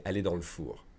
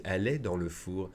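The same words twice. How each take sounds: First: "le" reduced to L in "dans le four"; casual run-together pronunciation. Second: "Elle est dans le four" with each word separate; careful full pronunciation. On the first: Teacher showing how natives say it, "le" reduced to L. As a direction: say "Elle est dans le four" quickly, as dans l'four. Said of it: "pronounce the le as an L apostrophe". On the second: Teacher showing what people won't say, every word fully pronounced. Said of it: "don't expect people to say". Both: Shown as a demonstration.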